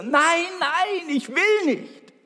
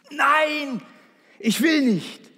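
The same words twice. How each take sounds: First: Put-on very high, loud childish shriek of refusal; boy screaming again. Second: Put-on high, loud little boy's scream of refusal. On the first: Boy yelling at his mother in the pool, very high shriek. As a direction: scream it out, a panicked little boy. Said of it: "schrie er wieder". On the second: Preacher voicing a scared boy refusing to jump, high shriek. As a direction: cry out like a terrified child on the starting block. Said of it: "schrie wie am Spieß".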